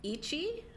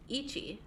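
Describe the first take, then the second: First: "Ichi" rising high at the end; questioning tune. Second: "Ichi" settling downward at the end; falling tune. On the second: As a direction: say "Ichi" as a statement, pitch falling. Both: Shown as a demonstration. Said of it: "Like that?".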